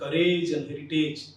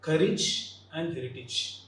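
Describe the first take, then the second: First: The words end with a full 'age' sound. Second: The words end with a short 'ij' sound. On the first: The speaker calls it wrong. "Often we pronounce these two terms like courage and heritage" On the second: The speaker calls it right. "The N should be ij"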